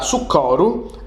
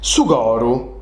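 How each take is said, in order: First: The c is a hard k sound. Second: The c is softened, like a g. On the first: The speaker calls it wrong. "po nosu sardos si parit unu sonu strapanau" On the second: The speaker calls it right. "È prus druci, è prus moddi"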